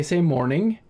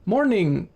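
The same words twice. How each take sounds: First: Said in the usual way. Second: "morning" ending in a popped k, higher pitch; silent K ending. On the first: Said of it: "she was just like". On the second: Retold or imitated. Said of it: "They have a silent K".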